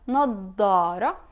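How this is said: It is said in Levantine style with a heavy d.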